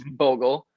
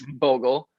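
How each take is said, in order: First: The name is said with a German pronunciation. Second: The same.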